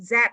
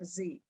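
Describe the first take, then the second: First: The letter is said as 'zed'. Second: The letter is said as 'zee'. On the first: This is the British way. "that's a very British way of, say, of saying Z" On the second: This is the American way. "not Z"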